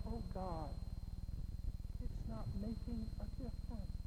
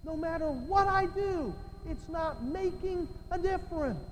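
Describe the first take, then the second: First: Soft, subdued aside; defeated sigh to God. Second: High, raised-pitch frustration; exasperated cry. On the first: Preacher voicing a burdened believer to God, quietly defeated. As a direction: drop the volume as if giving up. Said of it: "and just go". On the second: Preacher voicing a believer who feels useless, high and exasperated. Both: Acted.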